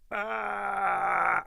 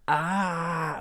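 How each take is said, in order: First: The scream is made with the glottis closed. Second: The scream is made with the glottis open. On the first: This way of screaming does not hurt the voice. The speaker calls it right. "I can scream with the glottis closed" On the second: This way of screaming ruins the voice quickly. The speaker calls it wrong. "with the with the glottis open"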